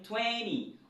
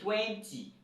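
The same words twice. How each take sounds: First: Twenty is said the American way. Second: Twenty is said in the plain textbook way. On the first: "c'est la prononciation américaine que j'ai utilisée ici" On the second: "vous avez appris twenty"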